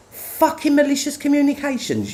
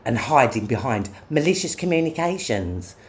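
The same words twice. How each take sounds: First: Exasperated outburst. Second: Said in the usual way. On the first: Real, not acted. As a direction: pitch jumps way up on the repeat. Repeats phrase in exasperation.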